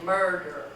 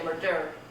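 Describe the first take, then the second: First: The stress is on the first syllable. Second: The stress is on the second syllable. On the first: The speaker calls it right. "You say murder. So first syllable is stressed" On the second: The speaker calls it wrong. "You don't say murder"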